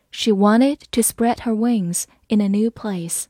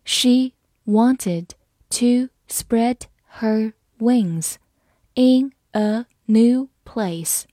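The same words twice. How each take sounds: First: Said in the usual way. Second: One word at a time; slow, separated words for learners to follow; slow reading. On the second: Shown as a demonstration. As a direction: read slowly, pausing after each word. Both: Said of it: "我们慢慢来读".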